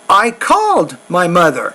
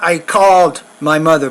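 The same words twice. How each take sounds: First: The word 'called' jumps to a higher pitch. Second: The word 'called' stays at a level pitch. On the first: The speaker calls it right. "make it a little bit higher pitch" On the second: The speaker calls it wrong. "It's not"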